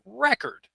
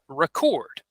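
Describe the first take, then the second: First: The stress is on the first syllable. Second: The stress is on the second syllable. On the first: The word is used as a noun. "If it's a noun, we use record" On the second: The word is used as a verb. "If it's a verb, we would say record"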